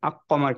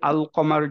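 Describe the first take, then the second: First: The L merges into a doubled Q sound. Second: The L sound is clearly pronounced before qamar. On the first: The speaker calls it wrong. "আক কমার কিন্তু আমরা বলি না" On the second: The speaker calls it right. "লামটাকে ঠিকভাবে উচ্চারণ করলাম"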